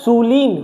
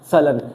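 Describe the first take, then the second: First: The second vowel is a long ee sound. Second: The second vowel is short and reduced. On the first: The speaker calls it wrong. "इसको जब आप पढ़ोगे तो क्या आ रहा है?" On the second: The speaker calls it right. "लेकिन इसकी प्रोनाउंसिएशन है सलन।"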